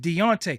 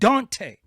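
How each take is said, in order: First: The name is said as Deontay. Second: The name is said as Dante. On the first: This is the name's actual pronunciation. The speaker calls it right. "His name is Deontay" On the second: This mispronunciation shows disrespect. The speaker calls it wrong. "His name is not Dante"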